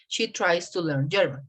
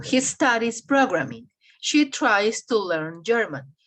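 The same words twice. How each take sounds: First: Repeated teacher demo of "tries"; teacher repeating "tries"; model sentence. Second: Slow teacher demo of "studies" and "tries"; teacher's slow dictation of "tries"; slow model sentences. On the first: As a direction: say "tries" with a clear z ending. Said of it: "So I change I E S". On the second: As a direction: stretch "studies" and "tries" slowly. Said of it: "Yo digo". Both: Shown as a demonstration.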